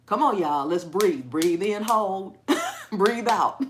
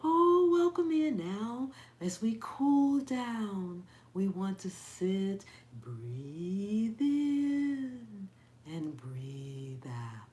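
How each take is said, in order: First: Loud, brisk coaching with a laugh; hyper yoga instructor. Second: Mock soothing yoga teacher. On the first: Pretend. Rallying y'all to breathe, loud hyper coaching. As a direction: holler the breathing cues like a pep talk. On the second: Imitating her yoga teacher at cool-down, syrupy slow calm. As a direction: glide and draw out each phrase, parodying calm. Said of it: "had to go in there and listen to her".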